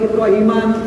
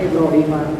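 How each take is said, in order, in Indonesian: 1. Kata ini berakhir dengan bunyi n yang ditambahkan. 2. Kata ini berakhir dengan vokal, tanpa n. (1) "tidak boleh Ibrahiman"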